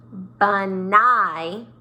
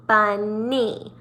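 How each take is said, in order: First: BUNNY mispronounced as bun-EYE, ending rhyming with "fly"; wrong long I ending. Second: BUNNY as BUN-NEE, ending in a long E; two syllables, long E. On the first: Teacher showing a silly mistake, BUNNY said as bun-EYE. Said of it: "you only did it once". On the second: Teacher showing the chin drops twice, BUNNY as bun-NEE. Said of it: "So it goes two different times". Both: Shown as a demonstration.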